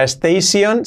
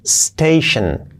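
First: "station" as rising es-tei-SION; added e, full "-sion" on "station"; wrong pronunciation. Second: "Station" as STEI-shen, hissed s first; falling "Station", no leading e; correct pronunciation. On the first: Teacher shows the mistake: "station" as es-tei-sion. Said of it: "no sería station". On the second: Teacher answers own question: "Station" as STEI-shen. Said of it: "¿qué sería?". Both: Shown as a demonstration.

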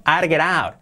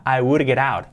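First: "I'd get out" with "I'd" as one quick syllable; contracted form. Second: "I would get out" with "would" said as its own word; uncontracted form. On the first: Teacher showing the contraction to students, contracted. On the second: Teacher showing the full form before contracting, uncontracted. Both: Shown as a demonstration. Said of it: "Contraído".

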